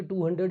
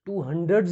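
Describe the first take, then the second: First: Said in the usual way. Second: "हंड्रेड्स" with the plural s clearly sounded; wrong plural. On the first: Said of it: "ही बोलेंगे". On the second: Shown as a demonstration. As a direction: stress the final s in "हंड्रेड्स". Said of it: "नहीं बोलेंगे". ("हंड्रेड्स" के आखिरी स पर ज़ोर)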